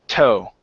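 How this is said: The vowel sounds American, with a relaxed tongue. The speaker calls it right. "it's laying lightly on the bottom of the of the mouth"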